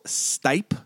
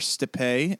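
First: The name is said the plain English way. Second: The name is said the French way.

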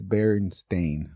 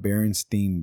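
First: The last syllable rhymes with 'rain', like 'stain'. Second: The last syllable does not rhyme with 'rain'. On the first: This is the name as actually spelled. The speaker calls it right. "It's Berenstain. Like you're a stain in my life" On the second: This is the name as people remember it. The speaker calls it wrong. "Not Berenstain Bears"

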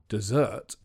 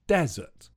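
First: The stress falls on the second syllable. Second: The stress falls on the first syllable. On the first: It is the sweet course at the end of a meal. "If you say the word with the stress on the second syllable" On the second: It is a dry place with little rain. "It's on the first syllable"

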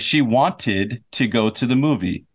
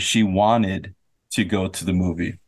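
First: The T in wanted is clearly pronounced. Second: The T in wanted is dropped. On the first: It sounds like a British speaker. "if you want to sound like a British speaker" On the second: It sounds like an American speaker. "If you want to sound like an American speaker"

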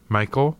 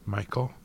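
First: The name is said louder. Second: The name is said softly.

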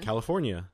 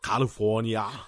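First: It is said in a plain American accent. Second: It is said in a foreign-sounding, Australian-like accent. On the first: It shows how the word should sound. The speaker calls it right. "How do you say it then?" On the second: It copies how someone else said it. The speaker calls it wrong. "That's what I heard"

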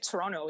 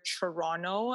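First: The word begins with a plain T sound. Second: The word begins with a CH sound. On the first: "I don't pronounce either of the T's in Toronto" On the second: "as if there's a CH instead of a T at the beginning"

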